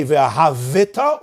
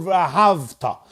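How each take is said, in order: First: "V'yahavita" drawn out with an extra vi syllable; V'yahavita, pronounced vowel after the v; moving shva. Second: "V'yahavta" with v running straight into ta; V'yahavta, no vowel after the v; silent shva. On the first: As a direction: sound the shva in V'yahavita, slowly. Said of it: "is a shvana". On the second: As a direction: close the syllable in V'yahavta. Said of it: "is a shvanach". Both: Shown as a demonstration.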